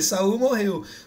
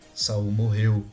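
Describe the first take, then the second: First: It is said in a light, relaxed tone. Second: It is said in a grave, serious tone. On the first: The death is told as a lighthearted moment. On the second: The death is a solemn matter.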